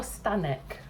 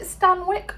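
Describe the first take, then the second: First: "Stanek" with no w, STAN-ick; second pronunciation option. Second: "Stanwyck" with the w sounded, STAN-wick; first pronunciation option. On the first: English host unsure of the star's surname, trying "Stanek" without w. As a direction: drop the w, saying "Stanek". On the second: English host unsure of the star's surname, trying "Stanwyck" with a w. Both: Shown as a demonstration. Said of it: "is it Stanwyck or Stanek".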